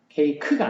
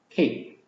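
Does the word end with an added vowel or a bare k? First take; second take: added vowel; bare k. First: The word ends with an extra vowel sound. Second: The word ends with a bare k sound. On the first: The speaker calls it wrong. "케이크가 아니고" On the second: The speaker calls it right. "크로 끝나는 거죠"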